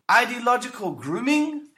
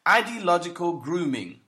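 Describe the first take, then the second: First: "Ideological grooming?" thrown back higher, pitch climbing as a question; incredulous question. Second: Said in the usual way. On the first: Acted. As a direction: query "Ideological grooming?" in high-pitched disbelief. Questions the term just quoted.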